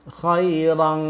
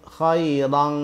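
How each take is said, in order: Both takes have the same delivery.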